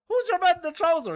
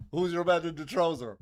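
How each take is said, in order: First: Puzzled repeat. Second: Said in the usual way. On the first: Retold or imitated. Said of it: "And I was like, "What?". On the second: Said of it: "he turns to us and he says".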